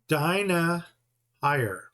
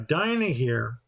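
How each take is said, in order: First: The last syllable sounds like 'higher'. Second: The last syllable sounds like 'here'. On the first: "E I is with a long I. It's pronounced I" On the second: "I've always called her Dinah here"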